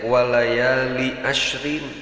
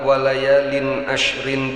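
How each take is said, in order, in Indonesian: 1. Kata pertama diakhiri tanpa bunyi n. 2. Kata pertama diakhiri dengan bunyi n. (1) "li na henteu ditanwinkeun" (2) "dinakirahkeun litta'dimi"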